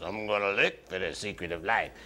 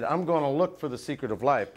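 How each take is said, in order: First: Low, soft character voice; Mister Hydro. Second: Said in the usual way. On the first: Acted. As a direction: drop down low and quiet for a storybook character. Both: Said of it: "But he talked like this".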